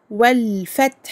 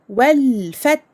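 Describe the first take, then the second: First: The 'l' sound is held with some duration. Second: The 'l' sound is held with some duration.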